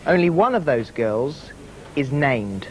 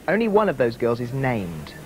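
First: It is read slowly and deliberately. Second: It is read at normal speed.

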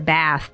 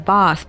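First: The vowel is a short 'a' sound, as in American English. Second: The vowel is a long 'ah' sound, as in British English. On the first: "which in American English would sound like" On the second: "commonly used words like ask, answer, bath, path"

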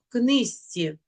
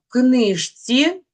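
First: The word is said as in natural speech. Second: The word is read as it is spelled. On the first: "вимовляємо книжці" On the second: "Пишемо книжці"

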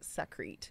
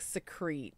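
First: The first syllable sounds like 'sack'. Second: The first syllable sounds like 'see'. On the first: The speaker calls it right. "but Sakrete" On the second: The speaker calls it wrong. "Not like secrete"

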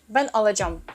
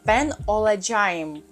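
First: The verb ending is shortened, a vowel dropped. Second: The verb ending is said in full. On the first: "А вони кажуть" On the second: "правильно казати"

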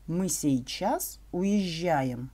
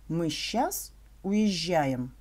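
First: The word сейчас is said in full, three syllables. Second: The word сейчас is shortened to one syllable, щас.

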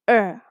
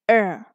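The two takes are said the same way.

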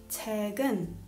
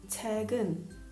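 No difference in how they are said.

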